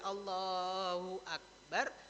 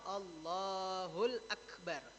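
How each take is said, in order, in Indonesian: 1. Tidak ada bunyi l sebelum Akbar. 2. Bunyi l menyambung ke Akbar.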